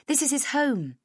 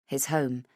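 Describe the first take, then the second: First: Higher, politely correcting; bright friendly woman. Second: Said in the usual way. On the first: A narrator's reading. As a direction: gently point out it's a home. Heather corrects caller.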